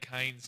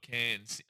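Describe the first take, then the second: First: The vowel is a long 'ay' sound. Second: The vowel is a short 'a' sound. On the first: The speaker calls it right. "I say canes" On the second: The speaker calls it wrong. "cans is more an American thing"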